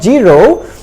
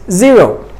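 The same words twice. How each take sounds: First: The word begins with a j sound. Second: The word begins with a z sound. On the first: The speaker calls it wrong. "The ja sound is not accurate because it's not zero" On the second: The speaker calls it right. "it's zero"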